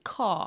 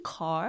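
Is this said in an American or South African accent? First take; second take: South African; American. First: It is said without the r, South African style. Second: It is said with an American r-colored vowel. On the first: The speaker agrees in her original accent. "where are all of your R's?" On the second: Classmates correct the pronunciation. "Do you mean car?"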